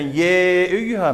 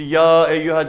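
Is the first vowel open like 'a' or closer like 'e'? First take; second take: closer e; open a. First: The first vowel is a thinner, front e. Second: The first vowel is an open, back a. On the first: The speaker calls it wrong. "ye eyyüha mı diyoruz?" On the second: The speaker calls it right. "Ya diyoruz değil mi işte?"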